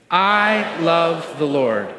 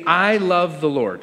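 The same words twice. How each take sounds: First: Slow, drawn-out group recitation; leading in unison. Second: Said in the usual way. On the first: Real, not acted. Pastor leading the church to say it with him, slow and deliberate. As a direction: stretch each word so everyone can join. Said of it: "can you say it with me?". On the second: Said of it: "So the first sentence is this".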